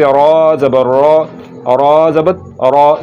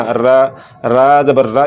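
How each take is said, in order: First: Slow "रा ज़बर रा" with heavy rounded "रा"; heavy recitation "रा", tongue root raised; full, thick R. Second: "रा ज़बर रा" with a light, open "aa"; wrong-way demo, light "रा"; thin R. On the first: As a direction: thicken "रा" toward an "aw" vowel, drawn out. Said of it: "मोटा करके पढ़ना है". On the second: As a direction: keep "रा" thin and unrounded. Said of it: "इसको ऐसे नहीं पढ़ना". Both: Shown as a demonstration.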